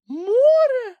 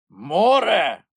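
First: Very high, loud squeaky cry; shocked piping shout; Kulka crying out. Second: High, louder gruff creature shout; Grampus shouting. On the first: Kulka discovers the sea instead of the pole, shrill cry. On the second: Grampus sees the sea, dismayed creature shout. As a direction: bellow it in dismay. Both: A narrator's reading. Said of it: "вигукнув Грампус".

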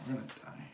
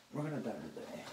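First: Mock doom. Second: Said in the usual way. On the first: Repeats the line more quietly.

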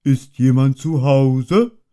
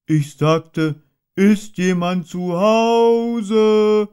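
First: Higher, louder, slow bear's call; a hint of a friendly shout; calling into the hole. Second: Much higher and louder, drawn out slowly; stretched, insistent shout; very loud call. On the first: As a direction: call politely down the rabbit hole. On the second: Acted. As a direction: bellow it down the hole so Rabbit can't pretend. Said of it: "rief Puh sehr laut".

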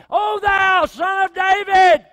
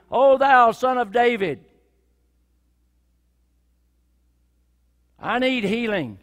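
First: High, slow, all-out shout; full-voiced shout. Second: Loud pleading cry for healing. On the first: Blind man shouting over the crowd to Jesus, all-out. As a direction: bellow it to the heavens. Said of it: "thirty decibels up to about nine". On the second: Acted. Blind man crying out again over the hushing crowd, loud.

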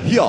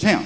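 First: "here" brayed as hee-ah, high; mock a bad Southern "here" as hee-ah; botched Southern "here". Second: "him" for here, in a Southern drawl. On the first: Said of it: "trying to do a donkey". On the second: Shown as a demonstration. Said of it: "say the Southern version of the word".

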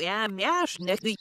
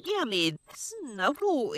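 First: Said in the usual way. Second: Slow, drawn-out "Ja, maar snap hoe"; slow and deliberate; slow repeat. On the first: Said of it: "repeated after slow take". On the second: Shown as a demonstration. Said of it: "repeated: ja, maar snap hoe".

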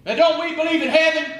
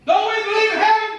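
First: Challenging question. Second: Much higher and louder, heaven rising at the end; impassioned outcry. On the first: Preacher challenging congregation. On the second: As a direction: hurl the question at them, pleading. Preacher repeats, louder and higher. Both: Real, not acted.

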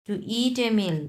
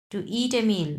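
No difference in how they are said.

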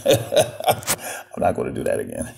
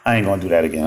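First: Laughing through the words; giggling apology; words broken by laughter. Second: Said in the usual way. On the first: Real, not acted.

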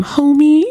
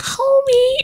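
First: "Homey" lifted high and a bit louder. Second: Very high, stretched-out "Homey" in an imitating cartoon voice; Marge Simpson impression. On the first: Shown as a demonstration. Decorating the Sims house, a raised playful "Homey". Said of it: "every time I say that". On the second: Quoting Marge to viewers, a very high mock "Homey". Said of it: "Marge is like".

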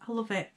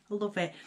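Both takes have the same delivery.

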